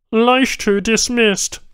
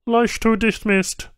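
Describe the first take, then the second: First: High, loud, slow Banu reply; curt alien tech. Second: High, terse Banu tech voice; a clipped alien answer; flat alien tech. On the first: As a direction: repeat it firmly and flatly. Tech repeats answer. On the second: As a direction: state it plainly, no feeling. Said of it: "the Banu said simply". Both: A narrator's reading.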